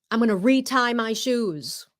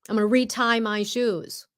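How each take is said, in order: The two takes are said the same way.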